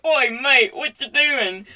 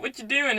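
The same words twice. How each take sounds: First: Hammed-up British accent, louder and higher; bad British accent. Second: Said in the usual way. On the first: Friends come up to the guy, horrible British accent. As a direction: attempt a British mate's greeting, badly. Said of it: "that was horrible accent". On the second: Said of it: "But anyway, so then they're like".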